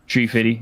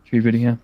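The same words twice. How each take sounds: First: "Tree fitty" with t for th. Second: "Tree fitty" repeated with t for th. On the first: Cohost quoting the tree fitty meme, "Tree" with hard t. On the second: Host repeating the tree fitty meme to cohost, "Tree" with hard t. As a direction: echo "Tree fitty" lightly. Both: Retold or imitated. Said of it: "a battery fitty".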